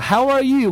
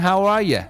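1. 'you' 这个词要完整读出。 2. 'you' 这个词会弱化读成 'ya'。

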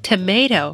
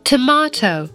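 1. 这个单词是用美式口音发音的。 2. 这个单词是用英式口音发音的。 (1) "在美音里我们会读成tomato" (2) "在英音里面呢我们听到佩奇和妈妈他们说的是tomato"

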